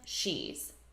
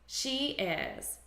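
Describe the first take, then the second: First: It is contracted into one short syllable. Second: It is said as two full separate words.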